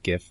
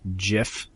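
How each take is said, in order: First: The word starts with a hard G sound. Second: The word starts with a soft J sound. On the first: "instead of" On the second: "like with a J"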